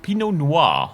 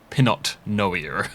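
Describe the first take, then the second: First: Pinot is said the French way. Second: Pinot is said as English spelling suggests.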